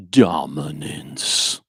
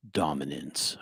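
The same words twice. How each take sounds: First: Very slow, drawn-out menacing word; scary voice. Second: Said in the usual way. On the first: Shown as a demonstration. Teacher redoing the word for the class in a scary voice. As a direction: stretch it out like a looming threat. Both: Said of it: "I should say that, uh, with a, a, a, like, a scary voice".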